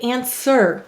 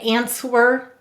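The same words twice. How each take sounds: First: No w sound follows the s. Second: A w sound follows the s. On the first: The speaker calls it right. "we say answer. In fact, this is a silent letter" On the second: The speaker calls it wrong. "do we say answer? No"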